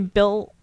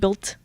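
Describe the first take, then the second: First: The T sound is dropped or barely heard. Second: The T sound is clearly pronounced. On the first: "I say built" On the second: "but not like built"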